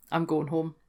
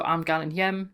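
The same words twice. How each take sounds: First: Said in the usual way. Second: "hjem" for home, said "hyem" with a y-glide; "hjem" as one syllable, h-yem; Geordie dialect. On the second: Shown as a demonstration. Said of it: "Then we've got hjem".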